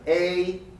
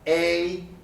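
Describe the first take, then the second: First: The vowel is long and glides slightly upward. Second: The vowel is long and glides slightly upward.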